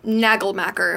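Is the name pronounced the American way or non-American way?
American. The name is said with an American pronunciation. The speaker calls it wrong. "if we want to pronounce it like a dumb American"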